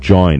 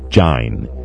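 First: The vowel sounds like 'oy'. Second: The vowel sounds like 'eye'. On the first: This is the present-day pronunciation. "the word join" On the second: This is the old pronunciation, still used in the Caribbean. "is pronounced jine, as to rhyme with line"

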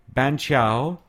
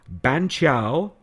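Both takes have the same delivery.

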